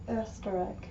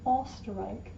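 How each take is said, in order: First: The first vowel is a fronted, rounded 'ö' sound. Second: The first vowel is a plain back 'o' sound. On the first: The speaker calls it right. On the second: The speaker calls it wrong.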